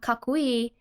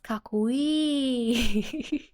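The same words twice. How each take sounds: First: The final vowel is short. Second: The final vowel is drawn out.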